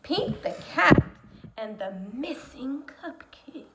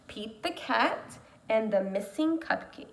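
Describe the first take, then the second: First: Dramatic title read. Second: Said in the usual way. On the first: Acted. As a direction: announce it, then drop into a whisper. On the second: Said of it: "Today, we're gonna read a book called".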